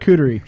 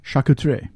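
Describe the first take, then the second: First: It is said with an English-speaking accent. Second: It is said with a French accent.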